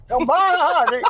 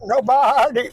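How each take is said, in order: First: Goat bleat voice, higher; bleating like a ram. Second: Bleating like a ram. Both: Shown as a demonstration. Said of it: "I have a keyword to get me into goat".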